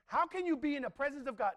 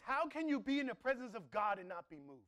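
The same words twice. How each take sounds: First: Louder, higher, pleading question; impassioned repeat. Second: Said in the usual way. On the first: Shown as a demonstration. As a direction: press the question on them with fire. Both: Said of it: "This is what I start asking myself".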